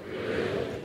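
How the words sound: It is said with little attitude.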